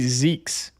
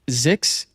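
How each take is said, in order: First: The vowel is long, rhyming with cheeks. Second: The vowel is short, rhyming with six. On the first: The speaker calls it wrong. "they say" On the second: The speaker calls it right. "the fact that my name actually sounds like six"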